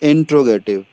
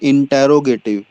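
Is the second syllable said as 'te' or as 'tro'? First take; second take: tro; te. First: The second syllable is said as 'tro'. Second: The second syllable is said as 'te'. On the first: The speaker calls it right. "The pronunciation of this word is इंट्रोगेटिव" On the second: The speaker calls it wrong. "कुछ लोग बोलते हैं इंटेरोगेटिव, so that is incorrect"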